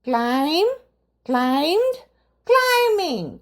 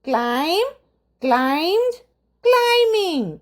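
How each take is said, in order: No difference in how they are said.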